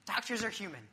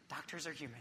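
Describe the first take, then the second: First: Said in the usual way. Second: Dropped to a soft murmur; hushed self-reminder; quiet aside. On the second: Shown as a demonstration. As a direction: say it softly to yourself, a reminder.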